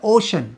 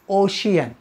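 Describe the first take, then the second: First: It has two syllables, 'o-shun'. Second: It has three syllables, 'o-shee-un'. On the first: The speaker calls it right. "But it's a ओशन" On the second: The speaker calls it wrong. "तुम्ही वाचला असेल ओशियन"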